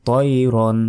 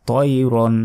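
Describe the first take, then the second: Both takes have the same delivery.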